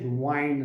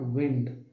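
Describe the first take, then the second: First: The vowel sounds like 'eye', as in kind. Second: The vowel sounds like 'ih', as in win. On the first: The speaker calls it right. "Now you will pronounce it wind" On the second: The speaker calls it wrong. "not wind"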